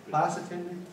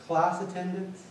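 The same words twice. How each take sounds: The two takes are said the same way.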